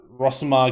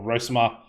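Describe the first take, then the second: First: "Rosamar" with a short open O; short-o pronunciation. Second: "Rosamar" with a long O; long-o pronunciation. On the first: Player using his preferred version of the name, short-o "Rosamar". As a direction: say "Rosamar" as ROSS-uh-mar. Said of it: "I'm gonna go with Rosamar". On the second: Player offering the other version of the name, long-o "Rosamar". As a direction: say "Rosamar" as ROH-suh-mar. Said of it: "I don't know if it's Rosemar or Ros". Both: Shown as a demonstration.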